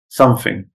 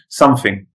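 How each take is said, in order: First: The middle consonant is an f sound. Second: The middle consonant is an f sound.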